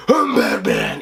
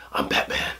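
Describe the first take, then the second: First: Gravel-deep Batman growl, much lower. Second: Whispered, very soft Batman line; smooth Michael Keaton. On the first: Reviewer imitating Bale's Batman, deep growl. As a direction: growl it from the chest. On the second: Reviewer imitating Keaton's Batman, soft smooth whisper. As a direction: breathe it out cool and smooth. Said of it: "Michael Keaton with the really smooth". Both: Retold or imitated.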